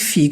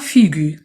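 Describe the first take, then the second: First: The word ends without a sounded u vowel. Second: The word ends with a sounded u vowel. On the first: The speaker calls it right. "c'est pour cela qu'on dit figue" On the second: The speaker calls it wrong. "on ne dit pas figu"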